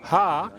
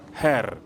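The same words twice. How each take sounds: First: It is said with standard English pronunciation. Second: It is said with Somali-influenced pronunciation. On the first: The speaker calls it right. "Instead of saying her" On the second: The speaker calls it wrong. "you say her"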